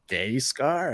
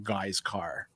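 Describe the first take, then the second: First: The first syllable sounds like 'gay'. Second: The first syllable sounds like 'guy'. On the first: Someone unfamiliar with the name guessed it. The speaker calls it wrong. "how do you say that?" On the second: This is how the name is really said. The speaker calls it right. "it's pronounced like a guy's car"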